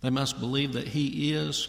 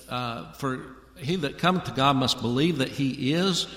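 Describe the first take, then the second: First: "he" punched in "believe that he is"; stress on HE. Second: "is" leaned on at the end of "believe that he is"; stress on IS. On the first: Preacher correcting his reading for the congregation, stress on "he". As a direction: hit "he" hard, let "is" fall away. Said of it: "the emphasis ... is not on the word is". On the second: Preacher reading Hebrews to his congregation, stress on "is". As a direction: put the weight on "is", not "he". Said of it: "You hear how I said that?". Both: Shown as a demonstration.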